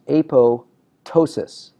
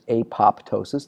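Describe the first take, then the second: First: The p before -tosis is silent. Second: The p before -tosis is sounded. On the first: "It is correctly pronounced apoptosis. ... the P is silent" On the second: "you'll hear a lot of people pronounce it apoptosis"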